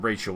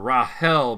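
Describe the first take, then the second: First: The name is said the English way. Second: The name is said the Danish way. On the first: "the boring English pronunciation of her name" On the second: "I call her Rahel because her her dad is uh, Danish"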